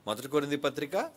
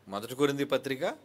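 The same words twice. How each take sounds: The two takes are said the same way.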